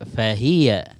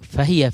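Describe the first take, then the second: First: The word's parts are said clearly apart. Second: The word's parts are run together. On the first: The speaker calls it right. "এই শব্দগুলো আলাদা করে দিতে হবে" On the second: The speaker calls it wrong. "ফাহিয়া বলা যাবে না"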